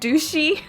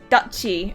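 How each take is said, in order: First: The middle consonant is a soft 'sh' sound. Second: The middle consonant is a sharp 'ch' sound. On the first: The speaker calls it wrong. "in my mind I read it douchey" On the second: The speaker calls it right. "so it's Dutchy"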